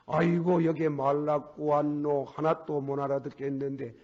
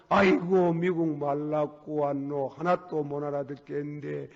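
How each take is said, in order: First: Lightly voiced whining son; mock-complain about not understanding. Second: Lightly acted son wailing, slow; son lamenting. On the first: Son back from America griping about English, lightly voiced. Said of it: "그래가지고 저거 봐". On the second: Son thumping the floor in a mild mock lament. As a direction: drag out the complaint. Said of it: "저거 봐, 안에서 막, 땅을 두드리고 탈기를 하는 게".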